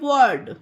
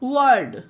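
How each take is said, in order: Both takes have the same delivery.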